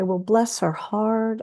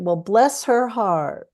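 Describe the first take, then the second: First: Said in a warm, sympathetic tone. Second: Said in a snide, sarcastic tone. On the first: The speaker feels sorry for the person. "if someone's going through a hard time" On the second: The speaker dislikes the person. "somebody uh, that you don't like very much or who's rude to you"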